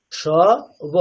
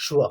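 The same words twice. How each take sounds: First: স and ব separated by a pause; single sounds. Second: স্ব in one syllable, "shwo"; combined conjunct. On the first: Teacher demonstrates the letters when single, separately. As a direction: pronounce স and ব one at a time. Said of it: "single যখন করছি". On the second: Teacher shows the only difference when said together, blended. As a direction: join sh and w in স্ব, both heard. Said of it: "একসাথে করলে". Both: Shown as a demonstration.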